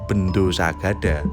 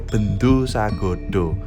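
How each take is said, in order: First: The final vowels are pronounced as open 'a'. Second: The final vowels are pronounced as rounded 'o'. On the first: The reader does not know Javanese pronunciation. The speaker calls it wrong. "kalau orang bukan orang Jawa ya bacanya Bendo Sagada" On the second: The reader knows Javanese pronunciation. The speaker calls it right. "kalau orang ngerti pelafalan Jawa maka dia akan ngomongnya Bendo Sagodo"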